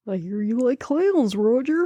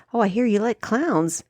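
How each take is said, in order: First: Taunting creepy clown voice; put-on clown voice, drawn into a taunt. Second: Said in the usual way. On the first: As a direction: menace Roger as a sinister clown. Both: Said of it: "creepy fucking clown".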